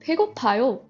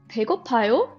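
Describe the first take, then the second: First: The voice falls at the end. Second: The voice rises at the end. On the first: It states that the speaker is hungry. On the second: It asks whether the listener is hungry.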